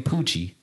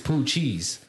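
First: The word ends with a 'chee' sound. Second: The word ends with a 'cheese' sound. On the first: The speaker calls it wrong. "They say the shit wrong, bro" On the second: The speaker calls it right. "They don't say, oh, this boy is poo cheese"

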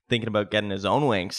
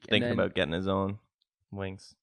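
First: The line is said loudly and confidently. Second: The line is said quietly and tentatively. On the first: The speaker calls it right. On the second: The speaker calls it wrong.

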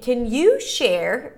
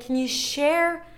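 First: The word you is stressed with raised pitch. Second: The word share is stressed. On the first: "raising the pitch for you" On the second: "stressing the share"

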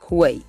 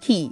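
First: It begins with a kw sound. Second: It begins with a plain k sound. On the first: The speaker calls it wrong. "you might be tempted to pronounce that word as quay" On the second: The speaker calls it right. "but that word is key. It's pronounced the same way you pronounce K-E-Y"

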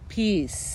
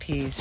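First: It is said with more enthusiasm. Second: It is said flatly, without enthusiasm.

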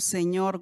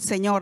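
First: It is said in a sad, pained tone. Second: It is said in an annoyed tone.

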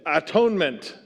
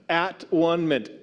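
First: It is said as one word with changed vowels. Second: It is said as separate words with full vowels.

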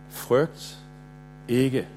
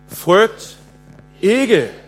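First: The word ikke carries no special stress. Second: The word ikke carries strong stress.

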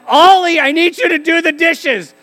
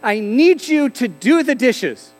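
First: It is said loudly and forcefully. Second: It is said at a normal, quiet volume.

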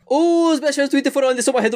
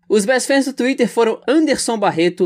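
First: It is rattled off very fast, like race commentary. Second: It is read at a normal, relaxed pace.

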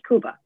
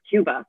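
First: Cuba is said with a Spanish pronunciation. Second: Cuba is said with an American English pronunciation. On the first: This is what people from there call it. The speaker calls it right. "his home was called Cuba" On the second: This is the outsider's version of the name. The speaker calls it wrong. "which is the Americanized bastardized version"

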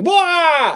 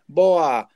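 First: It is said loudly and obnoxiously. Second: It is said at a normal, quiet level.

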